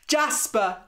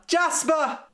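First: Higher, loud call. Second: Much higher, louder urgent call. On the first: A woman calls for Jasper at dawn, calling out. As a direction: call his name across the field. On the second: A woman calls for Jasper again, urgent high call. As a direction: call again, more desperate. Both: Acted.

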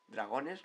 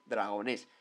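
First: "Dragones" questioned, stressed on -go-; stress on middle syllable. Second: "Dragonés" stressed firmly on the final -nés; stress on final syllable. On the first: Checking the mascot's name, "Dragones" stressed on middle syllable. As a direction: put the weight on the O of "Dragones". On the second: Correcting the mascot's name, "Dragonés" stressed on final E. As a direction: correct it, landing on the last E of "Dragonés". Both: Shown as a demonstration. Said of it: "con acento en la E".

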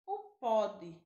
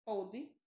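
First: Pode with an open o, as in "pódi"; pode pronunciation. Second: Pôde with a closed ô, as in "podi"; pôde pronunciation. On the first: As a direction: open the o in pode, a bit louder. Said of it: "que é utilizado no presente". (pode com o aberto) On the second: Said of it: "nas formas". (pôde com o fechado) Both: Shown as a demonstration.

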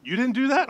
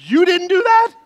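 First: Surprised question. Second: Much higher, louder shrieked echo; hammed-up shocked echo. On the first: Retold or imitated. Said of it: "And he said". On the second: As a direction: repeat it in stunned alarm. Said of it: "I'm like".

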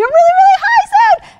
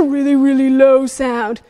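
First: "really high sound" squeaked up very high. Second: Really low voice. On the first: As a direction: shoot the voice way up. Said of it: "making a really, really high sound". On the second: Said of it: "then a really, really low sound". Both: Shown as a demonstration.

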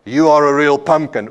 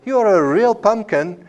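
First: A different tone. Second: Sweet and much higher on You; higher affectionate tone. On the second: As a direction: say it tenderly, pitched up high. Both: Shown as a demonstration. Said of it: "my voice in different tones".

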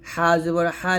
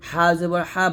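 The two takes are said the same way.

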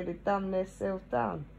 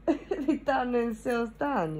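First: Said in the usual way. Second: Slow, higher, laughing through it. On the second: Shown as a demonstration. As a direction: drag it out while laughing at them. Repeats phrase, laughing slowly.

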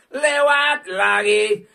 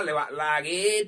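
First: Loud, very slow stretched yell; drawn-out shout. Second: Said in the usual way. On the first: Acted. Streamer bellowing at the machine, slow and loud. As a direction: bellow it out slowly. Chant repeated louder.

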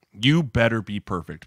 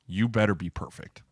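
First: "You better be perfect" slower and firmer; emphatic warning. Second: Said in the usual way. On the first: Real, not acted. Warning a demanding player, "You better be perfect" said slowly and emphatically.

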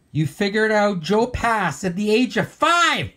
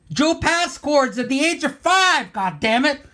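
First: Said in the usual way. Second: High-pitched incredulous yelp; worked-up and much higher, ending in a curse; exasperated outburst. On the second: Real, not acted. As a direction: cry out in envious outrage. Outburst over Rick's childhood talent.

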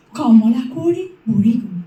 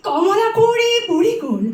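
First: Verse line recited low, falling at the end; low recitation. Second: Verse line repeated on a high pitch; high, lifted recitation. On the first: Reciter first telling of the princess grown old, low. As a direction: keep Kamala Konwari down low. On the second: Reciter repeating the line on the aged princess, high. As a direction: lift Kamala Konwari high and hold it up. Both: Acted.

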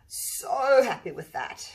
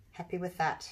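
First: "So" stretched long and loud; emphatic delight. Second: Said in the usual way. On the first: Real, not acted. Artist repeating her verdict on the pour, emphatic "So". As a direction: lean hard on a drawn-out "So", slow and delighted.

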